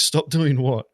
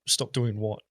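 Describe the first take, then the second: First: Louder, disbelieving stop doing what; incredulous repeat. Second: Said in the usual way. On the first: Retold or imitated. Warned player asks support in loud disbelief. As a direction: push it out, baffled and indignant.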